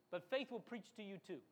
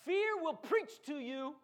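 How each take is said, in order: First: Said in the usual way. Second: Fear slow and loud with a rise; slow, punch Fear; stress on Fear. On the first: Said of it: "contrast with fear line". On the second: Shown as a demonstration. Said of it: "preacher stressing fear".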